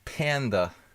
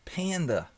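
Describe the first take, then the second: First: The word is said in a plain accent. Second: The word is said in a New York accent. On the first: "The proper pronunciation of panda" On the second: "Say it like a New Yorker"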